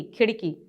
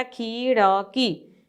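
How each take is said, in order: First: खिड़की said quickly as "khid-kee"; quick short vowel. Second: खिड़की stretched as "kheee-da-kee"; long drawn vowel. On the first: Teacher showing how we say it, खिड़की quick and joined. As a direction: clip खिड़की into two quick syllables, short i. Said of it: "खिड़की, जल्दी". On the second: Teacher reading the long-vowel spelling, खिड़की slow, syllable by syllable. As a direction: pull खिड़की apart slowly with a long ee first. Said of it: "खिड़की हम बोलते हैं". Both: Shown as a demonstration.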